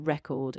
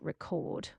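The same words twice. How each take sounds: First: The stress is on the first syllable. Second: The stress is on the second syllable.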